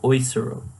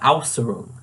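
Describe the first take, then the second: First: The first vowel is the umlauted 'äu' sound. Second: The first vowel is a plain 'au' sound. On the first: The speaker calls it right. "But I should be saying Äußerung" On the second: The speaker calls it wrong. "I've been saying uh, in the English sense"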